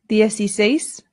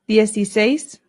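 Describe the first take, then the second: The two takes are said the same way.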